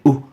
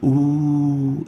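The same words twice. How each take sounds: First: The vowel is cut short and interrupted. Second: The vowel is held long and smooth. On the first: The vowel has a hamza. "we'll say oo" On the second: The vowel has no hamza. "Instead of saying oo"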